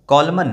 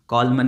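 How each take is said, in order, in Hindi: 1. इस शब्द के अंत में N की आवाज़ है। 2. इस शब्द के अंत में N की आवाज़ है।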